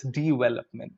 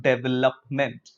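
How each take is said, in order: First: "development" as di-vel-op-ment; correct development. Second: "development" as dev-el-op-ment; wrong development. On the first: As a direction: start "development" with di. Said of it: "it's not development". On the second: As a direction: say "development" with deh. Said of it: "it's not". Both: Shown as a demonstration.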